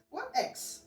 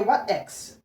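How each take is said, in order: First: A hushed, lifted echo of the question; soft high echo. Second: Said in the usual way. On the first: Acted. Echoing the partner's question to the viewer, high and hushed. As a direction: repeat it much higher and much softer. Repeats the quote, much softer.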